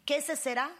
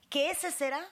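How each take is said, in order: Both takes have the same delivery.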